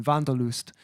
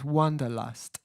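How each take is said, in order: First: Wanderlust the German way, V at the start; German pronunciation. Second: Said in the usual way. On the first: Shown as a demonstration. Streamer gives viewers the song name in German, German pronunciation of Wanderlust. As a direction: say Wanderlust as "VAHN-der-loost". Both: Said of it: "or in German".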